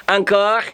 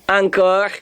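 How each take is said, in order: The two takes are said the same way.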